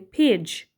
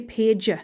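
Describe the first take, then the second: First: The word ends with the j sound. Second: The word ends with a sound other than j. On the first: The speaker calls it right. "we say page. So the j sound is the last sound" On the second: The speaker calls it wrong. "we don't say page"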